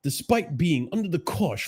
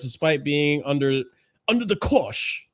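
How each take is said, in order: First: Higher-pitched mock English accent; mock-English reading voice. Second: Said in the usual way. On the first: Shown as a demonstration. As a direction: read it out in a put-on English accent. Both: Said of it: "I should read this in an English accent".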